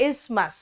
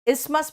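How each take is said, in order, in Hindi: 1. बीच की 'th' ध्वनि छोड़ दी जाती है। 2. बीच की 'th' ध्वनि छोड़ दी जाती है।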